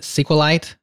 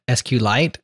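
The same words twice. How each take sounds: First: Sequelite said like "sequel light"; slow, high sequelite, first part as the word sequel; run-together pronunciation. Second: S Q Lite with the letters said separately; spelled-out pronunciation. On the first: Interviewer offering the second option, sequelite said as "sequel light". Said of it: "I kinda gave him those two examples". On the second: Interviewer offering the creator one option, S Q Lite spelled out. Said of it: "how do you pronounce it?". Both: Shown as a demonstration.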